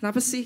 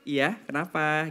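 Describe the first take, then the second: First: It is said in an annoyed tone. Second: It is said in a friendly tone.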